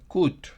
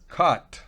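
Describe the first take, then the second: First: The vowel does not sound like Spanish A. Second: The vowel sounds like Spanish A. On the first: The speaker calls it wrong. "No es cut" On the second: The speaker calls it right. "parecido ... a la A española"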